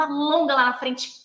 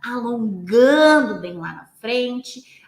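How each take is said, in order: First: Quick, vigorous coaching cue; brisk rhythm. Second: ALONGANDO stretched out long and loud; slow, lengthening. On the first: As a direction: keep it moving on the beat. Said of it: "Eu vou dar esse ritmo". (ritmo ágil e vigoroso) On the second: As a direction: draw the cue out slowly, like the stretch. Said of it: "a minha voz vai mudar o jeito". (voz lenta e alongada) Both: Shown as a demonstration.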